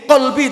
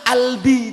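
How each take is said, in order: First: The word begins with a deep q sound. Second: The word begins directly with a vowel.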